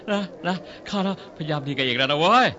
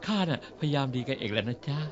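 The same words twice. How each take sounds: First: Rough. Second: Softer, lower, mock-sweet "จ๊ะ" ending; sweetly polite. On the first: Acted. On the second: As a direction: put on a sugary nice voice to win her over. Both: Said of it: "พูดเพราะๆก็ได้".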